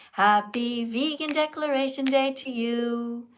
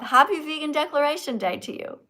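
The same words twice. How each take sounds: First: Slow sung. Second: Sung. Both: Pretend. Celebrating vegan declaration.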